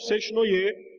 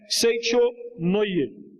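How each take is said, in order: First: The middle sounds blend together with no 'cho' syllable. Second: A clear 'cho' syllable is said in the middle. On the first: This is the common local way of saying it. The speaker calls it wrong. "ficou comumente conhecido no Brasil como Seshnoye" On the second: This is the original Japanese reading. The speaker calls it right. "o certo é Seicho Noye"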